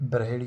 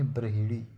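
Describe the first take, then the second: First: ब्रहेड़ी with he in the middle; wrong form. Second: ब्रहेड़ी said as bra-hi-ri; correct form. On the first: Teacher showing the error, ब्रहेड़ी with e after h. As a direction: say ब्रहेड़ी as bra-he-ri. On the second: Teacher correcting it, ब्रहेड़ी with hi. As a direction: say ब्रहेड़ी with i after h. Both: Shown as a demonstration. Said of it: "ब्रहेड़ी नहीं".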